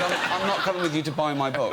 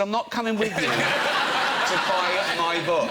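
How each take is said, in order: First: Said in the usual way. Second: Slower, with "with" leaned on, through a laugh; emphatic repeat. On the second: Retold or imitated. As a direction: spell it out slowly, hitting "with".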